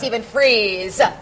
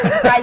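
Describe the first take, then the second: First: The surname rhymes with 'freeze'. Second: The surname rhymes with 'fries'. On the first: The speaker calls it right. "it's really Stephen Freeze" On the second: The speaker calls it wrong. "it's not Stephen Fries"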